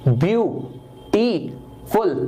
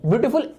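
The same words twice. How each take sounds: First: "ब्यूटीफुल" very slowly in three separate pieces; syllable by syllable. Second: Said in the usual way. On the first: Shown as a demonstration. Teacher proving three sounds, "ब्यूटीफुल" broken into three slow beats. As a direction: split "ब्यूटीफुल" as ब्यू... टी... फुल. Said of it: "तीन आवाजें निकल रही हैं". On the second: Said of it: "एक बार में नहीं बोला जाता".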